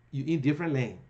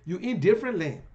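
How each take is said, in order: First: Said in the usual way. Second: "You in different lane" said again, louder and pressed; emphatic repeat. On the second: Shown as a demonstration. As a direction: hammer the line home a second time.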